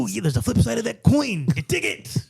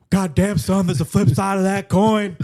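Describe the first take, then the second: First: Raspy-free light Macho Man promo, rising; a hint of Macho Man swagger; Macho Man impression. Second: Louder gruff wrestler growl; Stone Cold impression. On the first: Co-host shifts into Macho Man, lightly voiced. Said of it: "the Macho Man in that movie". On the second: Co-host redoes the coin line as Stone Cold, louder. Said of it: "doing Stone Cold's voice".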